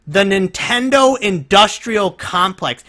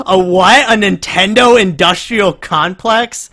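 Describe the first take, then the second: First: Nintendo industrial complex drawn out slowly, falling; slow savoring phrase. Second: Higher, louder, stunned; can't believe what he just heard; incredulous disbelief. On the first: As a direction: repeat the phrase slowly, relishing how absurd it is. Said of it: "said that phrase out loud". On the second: Incredulous at the clip. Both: Real, not acted.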